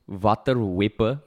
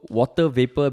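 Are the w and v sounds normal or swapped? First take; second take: swapped; normal. First: The w and v sounds are swapped. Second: The w and v sounds are pronounced normally.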